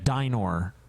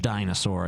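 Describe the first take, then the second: First: The word is said without an s sound. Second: The word is said with an s sound. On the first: The speaker calls it right. "Oh, I'm sorry, a dinor" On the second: The speaker calls it wrong. "I was pronouncing it incorrectly"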